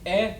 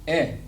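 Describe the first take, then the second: First: The vowel is said on a high pitch. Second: The vowel is said on a plain pitch. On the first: "And you got the high tone" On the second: "E makes a sound of eh"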